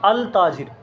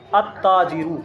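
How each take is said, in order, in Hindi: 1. L बोला जाता है, T से पहले। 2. L खामोश रहता है और T दोहरा बोला जाता है। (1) "अल ताजिर नहीं पढ़ा जाएगा" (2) "लाम का तलफ़ुज़ नहीं होगा"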